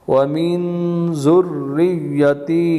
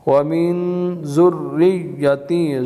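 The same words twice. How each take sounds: Both takes have the same delivery.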